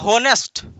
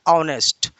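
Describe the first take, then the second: First: The word begins with an audible h sound. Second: The word begins with a vowel, no h. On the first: The speaker calls it wrong. "कुछ लोग इसको पढ़ता है होनेस्ट" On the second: The speaker calls it right. "यहाँ ये एच silent है, यहाँ का जो राइट प्रोनाउंसिएशन होता है ऑनेस्ट"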